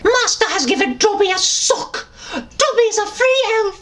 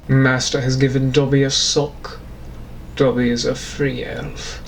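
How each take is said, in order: First: Squeaky high house-elf voice, much higher; high squeaky elf, excited; Dobby voice. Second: Low, posh British voice; low suave British gent; British gentleman. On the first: Dobby the house elf rejoicing over his sock. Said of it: "I'm also Dobby the house elf". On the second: Gentleman reading Dobby's sock line, low British. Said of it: "the British gentleman was then Dobby". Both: Acted.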